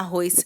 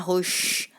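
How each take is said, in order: First: The final s is a plain hiss. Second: The final s is hushed, Belém style.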